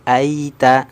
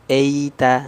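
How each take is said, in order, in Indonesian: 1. Vokal pertama terdengar seperti a terbuka. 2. Vokal pertama terdengar seperti e miring. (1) "harusnya waro a" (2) "akhirnya huruf A-nya kurang sempurna, miring, jadi vokal E"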